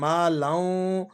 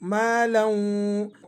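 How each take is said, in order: First: The word ends in a drawn-out nasal vowel. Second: The word ends in a short clear -an. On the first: The speaker calls it wrong. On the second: The speaker calls it right.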